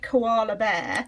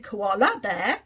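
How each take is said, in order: First: The last vowel of koala is a weak schwa. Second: The last vowel of koala is fully pronounced. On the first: The speaker calls it right. "If we said koala bear" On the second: The speaker calls it wrong. "we don't go koala bear"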